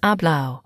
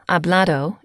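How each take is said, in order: First: The d before the final vowel is dropped. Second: The d before the final vowel is pronounced. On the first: "Sometimes the Spanish do not pronounce the auto, so hablado would be said as hablao" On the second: "hablado equals spoken"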